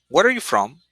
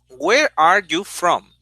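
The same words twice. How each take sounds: First: The words are linked smoothly together. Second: The words are said separately, without linking. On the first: The speaker calls it right. "You link there, link the words" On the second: The speaker calls it wrong. "Your students probably say"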